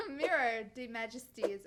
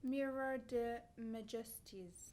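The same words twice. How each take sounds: First: "Mirror de Majesties" with plain English "Mirror"; louder, laughing English "Mirror de Majesties"; anglicized name. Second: "Miroir de Majesties" said slowly with a French "Miroir"; slow, tentative French-style "Miroir de Majesties"; careful French attempt. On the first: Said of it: "I'm gonna say it like that". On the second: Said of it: "I don't know how to say the name". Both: Shown as a demonstration.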